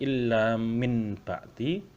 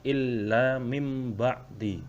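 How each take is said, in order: First: An n sound comes before the b. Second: An m sound comes before the b. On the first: This follows the written letters. "Tulisannya illa min ba'di" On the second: This is how it must be recited. "tetapi cara membacanya illa mim ba'di"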